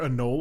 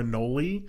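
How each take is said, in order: First: The word ends on the 'knoll' syllable. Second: The word ends with an added 'ee' syllable. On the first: This is how the Midwest says it. "here in, like, the Midwest, it's always just a knoll" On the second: This is how Florida and the South say it. "I'm pretty sure people in Florida call it an annoli"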